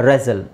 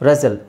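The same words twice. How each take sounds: No difference in how they are said.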